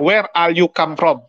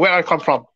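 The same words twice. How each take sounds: First: Slow "Where are you come from", each word separate in an Indonesian accent; careful learner English with Indonesian accent. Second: English accent, words linked smoothly; quick mock-native English accent; fluent English version. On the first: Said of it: "Dia nggak". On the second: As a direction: run "Where I come from" together like fluent English. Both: Shown as a demonstration.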